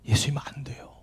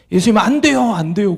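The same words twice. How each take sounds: First: Hushed whispered plea, imitating a weeping child; 숨죽인 애원. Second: Higher-pitched imitation of a child's tearful plea; mock a wailing child pleading, pitch lifted at first; 울먹이는 애원. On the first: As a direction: whisper it softly, as if stifling sobs. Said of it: "조용히 자기 입을 틀어막으면서". (입을 막은 듯 속삭이는 애원) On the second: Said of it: "통곡을 하면서 그 어린아이가". (아이가 울며 매달리듯 높여 애원)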